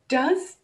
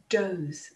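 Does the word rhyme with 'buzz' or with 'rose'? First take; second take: buzz; rose. First: The vowel sounds like the one in 'buzz'. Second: The vowel sounds like the one in 'rose'.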